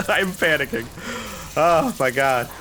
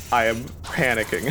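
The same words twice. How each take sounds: First: High, loud, laughing panic; real panic. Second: Said in the usual way. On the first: Real, not acted. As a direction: blurt it out, pitched up and giggly.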